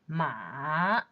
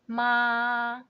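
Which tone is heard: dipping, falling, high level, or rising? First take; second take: dipping; high level. First: The pitch dips low and then rises. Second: The pitch stays high and level. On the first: "Third tone" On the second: "First one"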